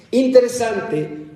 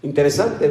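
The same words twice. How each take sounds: First: Interesante said slower and higher, drawn out with a falling end; emphatic drawn-out Interesante; stress on Interesante. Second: Said in the usual way. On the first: Shown as a demonstration. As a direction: linger on Interesante, raised and slow.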